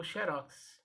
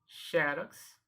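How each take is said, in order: First: "xerox" said she-RÓX; stress on last syllable. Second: XEROX said XÉ-rox; stress on first syllable. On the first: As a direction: open stressed final ROX in "xerox". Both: Shown as a demonstration. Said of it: "Essa palavra tem dupla pronúncia".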